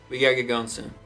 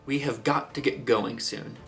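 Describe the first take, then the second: First: The words are slurred and run together. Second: Every word is pronounced crisply and distinctly. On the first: The character is less educated or a little drunk. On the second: The character is educated or formal.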